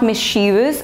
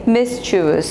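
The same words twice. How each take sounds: First: The stress falls on the second syllable. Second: The stress falls on the first syllable. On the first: The speaker calls it wrong. "So this is not mischievous. I have heard people pronouncing it wrong" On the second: The speaker calls it right. "the correct pronunciation is mischievous ... So the stress is on the first syllable"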